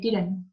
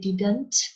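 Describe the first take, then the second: First: Part of the word is skipped and not pronounced. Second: Every sound in the word is clearly pronounced. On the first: "when we speak quickly, we can just say didn't" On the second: "we don't say didn't"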